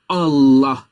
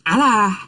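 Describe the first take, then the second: First: The L is pronounced thick and heavy. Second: The L is pronounced thin and light. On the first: The speaker calls it right. "Tetap kita bacanya Allah" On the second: The speaker calls it wrong. "Bukan Allah bacanya"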